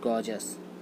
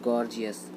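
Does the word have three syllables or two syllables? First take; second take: two syllables; three syllables. First: It is said with two syllables, gor-jus. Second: It is said with three syllables, gor-jee-us. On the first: The speaker calls it right. "इसका right pronunciation होता है गॉर्जस" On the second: The speaker calls it wrong. "ये right pronunciation इसका नहीं होता है"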